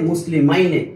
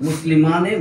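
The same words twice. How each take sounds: First: মুসলিমাইনে with a clear -াইনে, falling at the end; মুসলিমাইনে said deliberately; dual oblique form. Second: মুসলিমানে said clearly, ending on -ানে with a slight rise; dual nominative form. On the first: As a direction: contrast it with মুসলিমানে by stressing the -াইনে. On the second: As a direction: recite মুসলিমানে as the first form. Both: Shown as a demonstration. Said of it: "এরকম".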